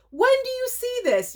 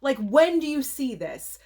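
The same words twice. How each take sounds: First: Very high thrilled shriek; high excited squeal. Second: Said in the usual way. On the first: Real, not acted. Marvelling at the rare DVD to viewers, squealing. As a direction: squeal the question in delight. Repeated, much higher.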